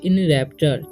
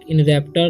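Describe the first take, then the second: First: The consonant before the ending is a 'ch' sound. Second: The consonant before the ending is a 't' sound. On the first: The speaker calls it right. "इसे पढ़ेंगे इन रैप्चर" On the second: The speaker calls it wrong. "नहीं पढ़ना है"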